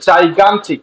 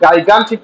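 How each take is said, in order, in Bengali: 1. শব্দটি J শব্দ দিয়ে শুরু হয়। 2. শব্দটি হার্ড G শব্দ দিয়ে শুরু হয়। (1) "একটা হচ্ছে জাইগান্টিক" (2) "আপনি গাইগান্টিক বলে ফেলতেছেন কিনা"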